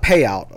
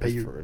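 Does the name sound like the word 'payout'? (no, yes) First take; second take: yes; no. First: The name sounds like the word payout. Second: The name does not sound like payout. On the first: The speaker calls it wrong. "It's not payout. We thought it was payout" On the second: The speaker calls it right. "that's how it's pronounced"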